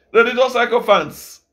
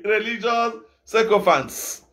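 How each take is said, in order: First: Louder, punched religious sycophants; louder repeat. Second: Slow, drawn-out religious sycophants; scornful label. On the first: Preacher repeats his insult to the crowd, louder. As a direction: hit religious harder the second time. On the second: Preacher mocks hypocrites before the crowd, slow and scornful. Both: Shown as a demonstration.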